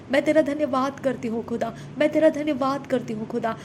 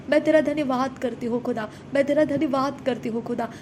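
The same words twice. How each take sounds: The two takes are said the same way.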